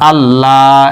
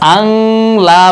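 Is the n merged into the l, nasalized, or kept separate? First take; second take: merged; nasalized. First: The n merges fully into l without nasal hum. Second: The n becomes a nasal hum before l. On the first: The speaker calls it right. "গুন্না ছাড়া মিলাইয়া পড়তে হবে" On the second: The speaker calls it wrong. "এখানে আং লা বলা যাবে না"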